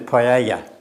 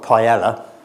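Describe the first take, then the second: First: It is said with a Spanish-style pronunciation. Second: It is said with an English-style pronunciation. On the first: This is the proper pronunciation. The speaker calls it right. "the proper way of pronunciation is paella" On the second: This is how the speaker used to say it. The speaker calls it wrong. "I used to call it paella"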